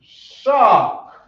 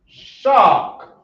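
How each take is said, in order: No difference in how they are said.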